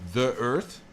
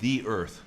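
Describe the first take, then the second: First: 'The' is said with a short 'uh' vowel. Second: 'The' is said with a long 'ee' vowel. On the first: "You can say" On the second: "but we can also say"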